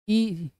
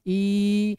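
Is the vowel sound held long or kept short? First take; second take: short; long. First: The vowel is said briefly. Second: The vowel is held for a long time. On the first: "छोटी तो इतना ही होता है" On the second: "लेकिन देर तक बोलना है"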